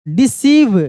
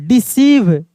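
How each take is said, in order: Both takes have the same delivery.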